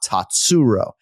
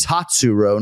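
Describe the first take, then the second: First: "Tatsuro" with the middle syllable punched; "Tatsuro" said as tat-SU-ro; wrong-syllable stress. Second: "Tatsuro" stressed on the first syllable; "Tatsuro" said carefully as TAT-su-ro; corrected stress. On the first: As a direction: slowly lean on the "su" in "Tatsuro". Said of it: "I've been emphasizing the wrong syllable". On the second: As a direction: hit the "Tat" in "Tatsuro", slowly. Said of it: "not Tatsuro". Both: Shown as a demonstration.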